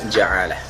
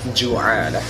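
First: The first syllable has the vowel a. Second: The first syllable has the vowel u. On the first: "bahkan bisa dibaca ja'alah" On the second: "bisa dibaca ju'alah"

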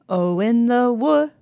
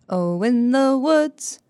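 First: The final consonants of 'woods' are dropped. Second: The final consonants of 'woods' are pronounced. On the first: The speaker calls it wrong. "just leave off the final two consonant sounds of woods" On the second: The speaker calls it right. "to pronounce words accurately, we need to hear all of the important sounds"

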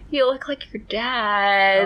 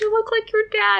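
First: The voice sounds flat and let down. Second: The voice sounds bright and delighted. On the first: It implies she does not look good. "It was more like, ah" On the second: It is meant as a compliment. "they didn't sound like, oh my gosh"

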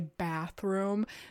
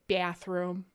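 First: It is said in a neutral accent. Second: It is said in a strong Midwestern accent.

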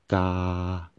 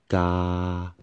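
First: The pitch stays level throughout. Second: The same.

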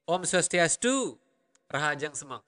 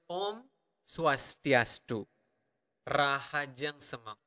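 First: The phrase is spoken at normal, faster pace. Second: The phrase is spoken at a slow pace. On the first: "Normal speed would be" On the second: "Or a slower version maybe"

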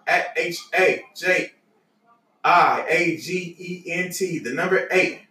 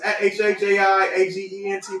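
First: It is said at a slower pace. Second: It is said at a faster pace.

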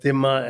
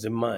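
First: The word begins with a 'dh' sound. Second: The word begins with a 'z' sound. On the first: This is how Arabic speakers say it. "In Arabic they pronounce it as Dhimma" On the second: This is how speakers in India say it. "in India we pronounce it as Zimma"

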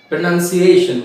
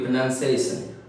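First: The -tion ending is said with sh. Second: The -tion ending is said with s.

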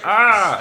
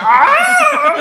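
First: The scream is at a lower pitch. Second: The scream is very high-pitched.

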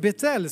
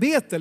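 First: The name is said the Hebrew way. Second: The name is said the usual Swedish way. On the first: The speaker calls it right. "det är faktiskt Betel som är lite mer riktigt uttal" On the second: The speaker calls it wrong. "Man ska inte säga Betel"

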